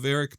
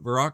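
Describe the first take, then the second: First: The name ends with a 'rick' sound. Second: The name ends with a 'rock' sound. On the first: This may be the proper way to say it. "I think it's maybe called Varric" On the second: This is the name used since childhood. "I always called it Varrock growing up"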